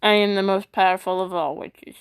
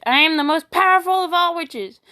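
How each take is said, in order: First: Said in the usual way. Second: Higher, louder theatrical boast; grand proclamation. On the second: Shown as a demonstration. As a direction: proclaim it like a triumphant witch. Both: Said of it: "My two moods".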